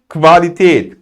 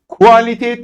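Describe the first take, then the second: First: The word begins with a 'kv' sound. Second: The word begins with a 'ku' sound. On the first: The speaker calls it right. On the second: The speaker calls it wrong.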